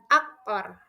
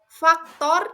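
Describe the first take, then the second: First: It begins with a vowel, no F. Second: It begins with an F sound.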